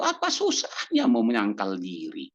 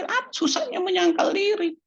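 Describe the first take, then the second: First: Said in the usual way. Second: Light mock shrug. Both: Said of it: "Kan kita bilang".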